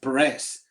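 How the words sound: The name is said with an American accent.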